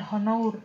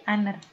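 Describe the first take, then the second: First: Honor said with a sounded H, HO-nor; mock the mistake honor with the H pronounced; wrong pronunciation. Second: Honor said with a silent H, AH-ner; right pronunciation. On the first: Teacher showing students the wrong honor. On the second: Teacher showing students the correct honor. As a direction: say honor without the H. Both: Shown as a demonstration. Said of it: "bacanya adalah bukan honor".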